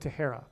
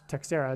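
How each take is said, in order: First: The X in the middle is silent. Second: The X in the middle is sounded. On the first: The speaker calls it right. "It's probably a silent X, and it's probably Teixeira" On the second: The speaker calls it wrong. "I doubt it's pronounced Teixeira"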